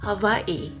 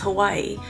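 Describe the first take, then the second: First: The middle consonant is a V sound. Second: The middle consonant is a W sound. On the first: This is how locals say it. "So the W is sounds more like a V" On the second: This is how a mainland speaker says it. "I grew up pronouncing Hawaii as Hawaii"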